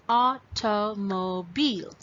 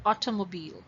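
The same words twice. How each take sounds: First: "automobile" drawn out in four separate beats; broken into syllables. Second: Said in the usual way. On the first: Shown as a demonstration. Teacher showing how to find syllables, "automobile" broken apart. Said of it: "when you break this word". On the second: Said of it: "When you blend it together".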